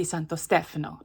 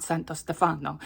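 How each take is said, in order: First: Stefano as STEF-uh-no, middle vowel reduced; stress on first syllable. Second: Stefano said steh-FAH-no, middle syllable stressed. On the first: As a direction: hit the first syllable of Stefano, let the middle one go short. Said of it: "it's supposed to be". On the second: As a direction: lean on a long FAH in Stefano. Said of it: "put the emphasis on the wrong syllable". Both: Shown as a demonstration.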